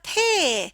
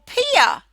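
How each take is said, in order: First: No extra vowel follows the ear sound. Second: An extra 'uh' vowel follows the ear sound. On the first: The speaker calls it right. "without using the silly schwa sound" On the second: The speaker calls it wrong. "you add the schwa"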